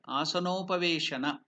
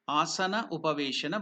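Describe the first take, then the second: First: The two words merge into one word. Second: The two words are said apart, unjoined. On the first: "together you have to tell it as one word" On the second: "I will break it"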